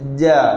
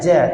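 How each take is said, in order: First: The consonant is crisp with no puff of air. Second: The consonant comes with an audible puff of air. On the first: The speaker calls it right. "Angin tak ada" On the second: The speaker calls it wrong. "Kalau hujung lidah saya pakai ja"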